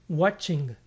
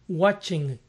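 Both takes have the same delivery.

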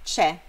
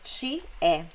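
First: It is reduced to a single syllable. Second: It is said as two separate syllables. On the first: "Comumente dito e escrito c'è" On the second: "A forma seria ti é"

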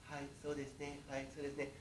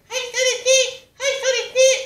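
First: It is said in a normal-pitched voice. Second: It is said in a much higher voice.

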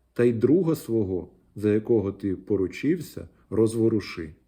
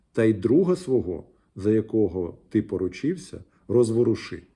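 The two takes are said the same way.

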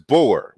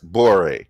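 First: The word ends on the r with no vowel. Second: A vowel is sounded after the final r. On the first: The speaker calls it right. "We pronounce it as if the vowel doesn't exist at the end of the word" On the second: The speaker calls it wrong. "we don't even pronounce it as bore"

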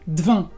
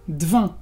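Both takes have the same delivery.

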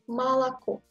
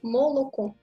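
First: The first two vowels are pronounced like 'a'. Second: All three vowels are pronounced as a full 'o'. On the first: The speaker calls it right. "Mais il faut dire Malako parce que l'accent tombe sur O final" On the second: The speaker calls it wrong. "Vous voyez la trois O"

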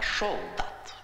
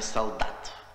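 First: The first sound is a lisped sh-like s. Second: The first sound is a clear s. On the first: "а шолдат ... шепелявит или пришепетывает" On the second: "Не солдат"

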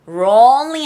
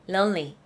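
First: The L sound is heavy and strong. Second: The L sound is light and soft. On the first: The speaker calls it wrong. "Lonely 아니에요" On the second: The speaker calls it right. "L 발음은 가볍게 나죠"

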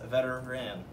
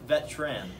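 First: The word is said with three full syllables. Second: The word is squeezed into two syllables. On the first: The speaker calls it right. "correctly pronounced" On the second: The speaker calls it wrong. "erroneously pronounced"

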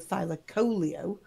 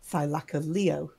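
First: The stress falls before the final 'leo' part. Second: The stress falls on the final 'leo' part. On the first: This is how the speaker always said it. "whereas I used to do Thylacoleo" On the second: This is how documentaries say it. "It's always ended with Leo as the emphasis"

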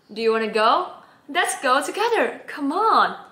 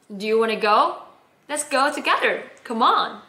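First: It is said with livelier, more animated energy. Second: It is said with flatter, more restrained energy. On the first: "解放我的双手。 这个整个感觉又不一样的。" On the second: "把我手绑住，好，不动手。"

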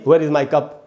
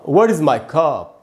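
First: The vowel in 'cup' is a half 'a' sound. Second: The vowel in 'cup' is a full 'a' sound. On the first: The speaker calls it wrong. "न कि" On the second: The speaker calls it right. "पूरा अ बोलना है"

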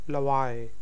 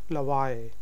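Both takes have the same delivery.

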